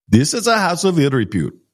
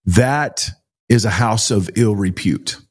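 First: Higher, clipped imitation of the Indian driver's accent; harsh Indian accent. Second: Said in the usual way. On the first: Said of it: "and his accent was so harsh". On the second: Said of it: "his accent was so harsh".

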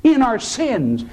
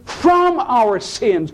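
First: "in" hit high before "our sins"; stress on IN. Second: "from" stretched out high; stress on FROM. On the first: Preacher says what God never does, stress on "in". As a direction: punch the word "in". Contrasts "in" with "from. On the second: Preacher says what God does instead, stress on "from". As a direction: lean long and hard on "from". Contrasts "from" with "in. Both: Real, not acted.

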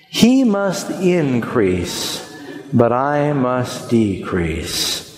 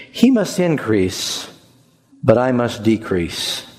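First: Very slow, drawn-out unison recital of "He must increase, but I must decrease"; slower group recital. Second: Slow, weighty recital of "He must increase, but I must decrease"; slow recited verse. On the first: Pastor saying the verse together with the congregation, very slowly. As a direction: stretch every word so the room can follow. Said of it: "Would you say that with me".

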